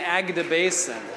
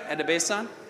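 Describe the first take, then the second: First: The name is said with a g sound. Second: The name is said without a g sound. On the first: The speaker calls it wrong. "I was saying Agdebayson" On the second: The speaker calls it right. "I heard the G is silent"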